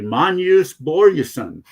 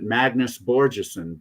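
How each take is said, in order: First: The name is said with a Swedish pronunciation. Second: The name is said with an English pronunciation. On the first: The speaker calls it right. "it's actually" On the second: The speaker calls it wrong. "those dumb Americans and maybe some Brits pronounce it"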